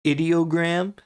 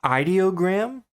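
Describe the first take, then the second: First: Ideogram with a short i, "ID-ee-oh-gram"; short-i pronunciation. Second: Ideogram with a long i, "EYE-dee-oh-gram"; long-i pronunciation. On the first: Naming the new AI, "Ideogram" opening with "id". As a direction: say "Ideogram" starting like "idiom", not "idea". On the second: Wondering how it is pronounced, "ideogram" opening with "eye". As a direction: say "ideogram" starting like "eye", questioning rise. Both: Shown as a demonstration. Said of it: "is it pronounced ideogram".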